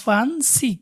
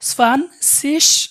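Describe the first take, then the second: First: The word ends in a hard g sound. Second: The word ends in a soft hissing sound. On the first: "অথবা স্পান সিগ" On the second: "আপনারা বলতে পারেন স্পান সিস"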